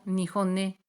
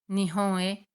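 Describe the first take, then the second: First: The final n links into the vowel as ne. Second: The final n stays separate from the vowel. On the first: The speaker calls it wrong. "acaban pronunciando nihon-ne" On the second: The speaker calls it right. "Intentan pronunciar nihon-e"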